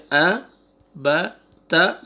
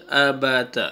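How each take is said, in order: First: آ، با، تا with a pause after each; separate letters. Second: آ، با، تا run together as one unit; three letters joined. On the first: Teacher models the first reading, آ، با، تا paused apart. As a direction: say آ، با، تا one at a time, stopping between. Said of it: "روک کے بولتے ہیں". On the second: Teacher models the second reading, آ، با، تا joined smoothly. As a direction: link آ، با، تا without any pause. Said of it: "three letters کو آپ ایک ساتھ بولیں". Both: Shown as a demonstration.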